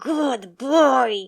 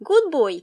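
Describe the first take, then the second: First: It is said in a loud, aggressive tone. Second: It is said in a light, smooth tone.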